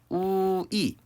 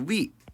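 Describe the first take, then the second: First: It is said as a gliding two-part vowel. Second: It is said as one steady vowel. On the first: "이중 모음으로 발음할 수 있다" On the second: "원칙적으로는 단모음"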